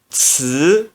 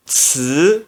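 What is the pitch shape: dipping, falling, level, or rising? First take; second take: rising; rising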